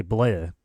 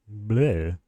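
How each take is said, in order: First: Said in the usual way. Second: Light cartoon vampire "bleh"; vampire impression. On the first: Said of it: "you say bleh". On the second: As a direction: toss off a quick vampire bleh. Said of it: "vampire impression?".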